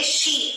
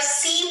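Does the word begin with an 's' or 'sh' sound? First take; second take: sh; s. First: The word begins with a 'sh' sound. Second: The word begins with a plain 's' sound. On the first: The speaker calls it right. "आप बोलेंगे शी" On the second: The speaker calls it wrong. "इसे आप सी pronounce नहीं करेंगे"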